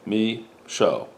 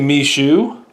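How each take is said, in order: First: The last syllable sounds like show. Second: The last syllable sounds like shoe. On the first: The speaker calls it right. "My mother says me show, ... television show" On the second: The speaker calls it wrong. "I say Mishu, ... M E dash shoe, like the shoe you wear on your foot"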